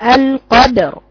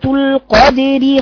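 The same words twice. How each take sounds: First: The final r is heavy and full. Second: The final r is light and thin. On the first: The reader stops on the word. "هقف عليه وقفا بايه مفخم" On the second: The word is read joined to the next word. "الترقيق وصلا لأنها مكسورة"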